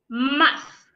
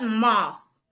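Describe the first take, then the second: First: The word ends with a th sound. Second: The word ends with an s sound. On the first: The speaker calls it right. "So this word is pronounced muff" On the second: The speaker calls it wrong. "So it's not moss"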